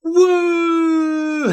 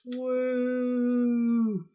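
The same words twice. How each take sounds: First: It is said with lots of energy. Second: It is said with little energy.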